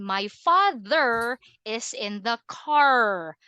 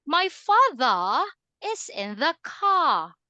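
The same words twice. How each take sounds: First: Slow, "father" and "car" with the final R sounded; American R. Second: "father" and "car" with the final R dropped; British non-rhotic. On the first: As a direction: hit a full R ending "father" and "car", US style. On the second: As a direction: slowly end "father" and "car" on open vowels, British style. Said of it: "You cannot hear the R sound". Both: Shown as a demonstration.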